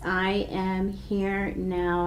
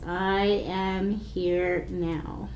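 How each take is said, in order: First: Slow, soft, drawn-out mantra; gentle slow repetition. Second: Very slow, soft mantra on one breath; drawn-out calm chant. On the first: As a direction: say it like a calm inner chant. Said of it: "say it in kind of a sing-songy voice". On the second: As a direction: stretch it over a full breath. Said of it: "in a nice, slow way". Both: Shown as a demonstration.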